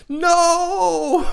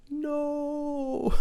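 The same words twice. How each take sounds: First: Very high, loud cry of no; outward no. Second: A despairing no kept inside; silent inner no. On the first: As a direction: blurt the no out at full volume. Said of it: "But on the outside, I'm like". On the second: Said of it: "And on the inside, I'm like". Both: Retold or imitated.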